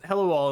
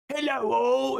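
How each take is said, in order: First: It is said in his normal voice. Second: It is said in a put-on voice.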